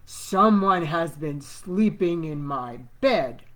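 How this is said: It is said in a great big voice.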